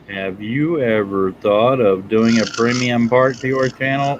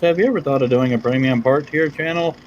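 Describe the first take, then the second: First: It is read at a slower pace. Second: It is read at a fast pace.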